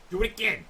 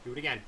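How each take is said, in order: First: Louder and higher; louder urging. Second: Said in the usual way. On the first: Shown as a demonstration. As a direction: push it, more eager.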